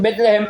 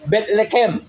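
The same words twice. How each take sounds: First: It is said in the familiar local way. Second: It is said with a Hebrew pronunciation. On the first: "Alam natin Bethlehem" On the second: "sa salitang Ebreo, Bethlehem. Yun ang totoong pronunciation noon"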